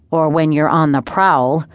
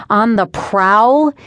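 First: Slow, pointed sibling dig; needling jab. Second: Slow, higher, rising disbelief; indignant echo. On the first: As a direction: draw it out as a teasing dig. Brother needles sister about dating. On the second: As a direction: throw it back as an offended question. Sister indignant at brother's dig. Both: A narrator's reading.

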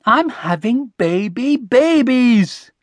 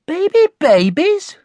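First: High, slow, spelling out the news; gleeful announcement. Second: High, loud, questioning echo; doubtful. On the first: Mum correcting Connie with the baby news, gleeful. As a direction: savour each word, rising in excitement. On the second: Connie repeating Mum's news back, doubtful. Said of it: "didn't just sound doubtful now". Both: A narrator's reading.

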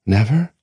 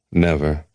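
First: Never rising high and louder in disbelief; Never as a louder rising question; stunned question. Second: Said in the usual way. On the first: A narrator's reading. Length asks the voice, louder and rising in disbelief.

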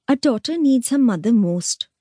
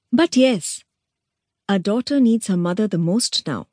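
First: Higher, sing-song mocking echo; mocking mimicry. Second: Knowing. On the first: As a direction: parrot her words back with scorn. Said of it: "mimicked Meenakshi". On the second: Acted. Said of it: "nodded Mandodari knowingly".

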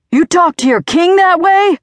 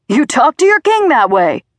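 First: High, loud, outraged scream, dropping at the end. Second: High, loud, furious bellow; shouting. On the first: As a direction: scream it as an affronted tyrant. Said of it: "he screamed". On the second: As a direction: shout it as an outraged self-styled king. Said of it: "Dad shouted". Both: A narrator's reading.

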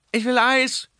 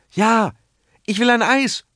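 First: Put-on very high delighted child, stress on "Eis"; happy boy clapping, "Eis" sung out high; gleeful child's shout. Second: Put-on high eager child calling out, stress on "will"; little boy begging, "will" rising high; eager child's call. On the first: Boy cheers for his ice cream, gleeful and high. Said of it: "ruft Pepe und klatscht vergnügt". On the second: Boy calls to his parents for ice cream, eager and high. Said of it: "ruft Pepe da". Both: A narrator's reading.

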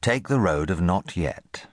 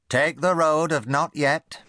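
First: Slow, measured title read; plain title reading; chapter title read slowly. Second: Put-on high, slow stern warning from an old aunt; great-aunt warning her nephew sternly. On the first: A narrator's reading. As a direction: announce the chapter title with weight. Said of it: "Chapter one". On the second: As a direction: wag a finger as you warn the boy. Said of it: "she warned".

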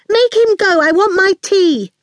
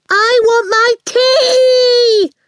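First: Put-on high, insistent little-girl voice; demanding child. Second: Put-on high, drawn-out child's bellow; piercing yell. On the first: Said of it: "in the piercing way that had earned her name". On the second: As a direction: yell it slow and piercing, stretching the last word. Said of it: "Awful yelled, in the piercing way". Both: A narrator's reading.

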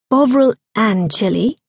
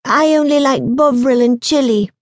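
First: "Bovril and chili" echoed with a questioning rise at the end; puzzled echo. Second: Put-on higher-pitched child stating a firm refusal; fussy boy. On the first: Woman querying a boy's odd crisp flavour, puzzled rise on "chili". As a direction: repeat "Bovril and chili" as a doubtful question, rising on "chili". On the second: Boy rejecting a woman's crisps, fussy. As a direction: play a picky boy turning food down. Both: A narrator's reading.

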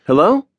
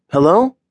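First: High rising call into an empty room. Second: High rising call, a bit louder. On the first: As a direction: call out, unsure anyone is there. Calling out in empty salon. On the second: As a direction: call out again, more insistent. Calling again, louder. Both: A narrator's reading.

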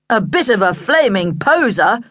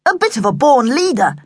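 First: Scornful echo of a boast; sarcastic dad putting him down; mocking dad. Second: Higher, proud, puffed-up delivery; self-important manly boast; manful boasting. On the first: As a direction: cut the show-off down to size. Dad mockingly completes son's boast. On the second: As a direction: say it with chest stuck out. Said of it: "He stuck his chest out manfully". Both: A narrator's reading.

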